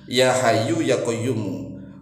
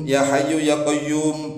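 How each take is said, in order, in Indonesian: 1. Kata terakhir berakhir dengan suku kata mu akhir. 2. Kata terakhir berakhir dengan bunyi m mati. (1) "mu-nya dibaca mu begitu" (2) "Kalau misalnya dibaca begini"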